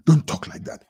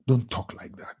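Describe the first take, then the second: First: Breathy half-whispered repeat; hushed warning. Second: Said in the usual way. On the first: Real, not acted. Host repeating his warning to Kwame, hushed. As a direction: drop to a breathy hush.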